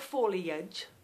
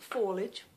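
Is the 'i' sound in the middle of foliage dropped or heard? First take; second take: heard; dropped. First: The middle 'i' sound is clearly pronounced. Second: The middle 'i' sound is left out. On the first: The speaker calls it wrong. "It's not foliage" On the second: The speaker calls it right. "I don't pronounce the I"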